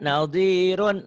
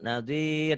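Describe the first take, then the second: First: The word ends with a full -un syllable. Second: The word ends on a bare r consonant. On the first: The word is read without stopping on it. "Kalau ini enggak" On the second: The reader stops on the word. "jadi sukun"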